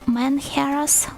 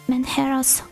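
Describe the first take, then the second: First: The first syllable sounds like 'man'. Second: The first syllable sounds like 'men'. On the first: The speaker calls it wrong. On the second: The speaker calls it right.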